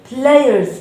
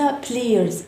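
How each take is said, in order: First: "players" with an AY glide, PLAY-erz; "players" with AY before the schwa; correct players. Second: "players" said wrongly as PLEE-erz; "players" mispronounced with an EE vowel. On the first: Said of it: "players ليس players". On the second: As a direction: swap the AY of "players" for EE. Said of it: "ليس players". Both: Shown as a demonstration.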